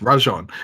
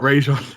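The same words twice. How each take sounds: First: The first syllable has an open 'ah' vowel. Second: The first syllable has an 'ay' vowel. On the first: The speaker calls it right. "It's Rajon" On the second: The speaker calls it wrong. "it's not Rajon"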